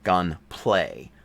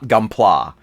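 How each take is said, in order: First: The last syllable sounds like 'play'. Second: The last syllable sounds like 'plah'. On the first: The speaker calls it wrong. "he says gunplay, gunplay, not gunpla" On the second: The speaker calls it right. "not gunpla"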